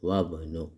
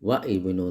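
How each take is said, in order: First: The 'i' of ibnu is dropped, linking wabnu. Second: The 'i' of ibnu is pronounced separately. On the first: The speaker calls it right. "അലിഫ് ഉച്ചരിക്കില്ല" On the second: The speaker calls it wrong. "വ ഇബ്നു എന്ന് പറയില്ല"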